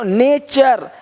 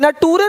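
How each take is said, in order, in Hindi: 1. बीच का व्यंजन 'ch' की आवाज़ है। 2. बीच का व्यंजन 't' की आवाज़ है। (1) "टी का उच्चारण चा होता है" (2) "नटूरे नहीं"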